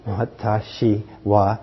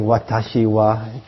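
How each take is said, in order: First: "Watashi wa" drawn out very slowly, all four syllables; showing how long "Watashi wa" takes to say; counting syllables. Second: Slow, careful "Watashi wa" with each syllable clear; a teacher modelling "Watashi wa"; Japanese pronoun. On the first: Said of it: "so it's four syllables". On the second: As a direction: spell out "Watashi wa" slowly, syllable by syllable. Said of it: "that's the, how you say I". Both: Shown as a demonstration.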